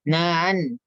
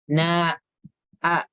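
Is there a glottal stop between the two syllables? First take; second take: no; yes. First: The two syllables blend with no glottal stop. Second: A glottal stop separates the two syllables. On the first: The speaker calls it wrong. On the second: The speaker calls it right. "harus ditutup dulu pita suaranya"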